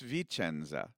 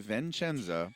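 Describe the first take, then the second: First: No n sound follows the first vowel. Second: An n sound follows the first vowel. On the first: The speaker calls it right. "No Vin, just V" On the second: The speaker calls it wrong. "I'm going to say it wrong first"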